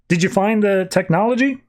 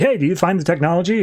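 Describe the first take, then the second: First: Higher, casual question over comms; just ask it lightly, a bit up; Lex asking. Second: Quicker, pushier repeat of the question; impatient Lex. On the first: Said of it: "Lex to come over the comms and just like". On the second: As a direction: rattle it off, impatient now. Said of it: "he's like". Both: Retold or imitated.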